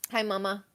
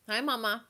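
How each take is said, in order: First: Softer, tender greeting to the pet; soft pet talk. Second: Soft pet talk. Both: Real, not acted. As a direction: coo it quietly to the dog. Talking to her pet.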